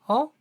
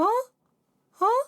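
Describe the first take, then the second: First: It is low-pitched with a fuller speaking texture. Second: It is high-pitched with a thin falsetto texture. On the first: "이 음을 조금씩 조금씩 올려보면" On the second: "점점 소리가 자연스럽게 옅어지면서 성대 접촉이 최대한 잘 붙는 가성으로 변합니다"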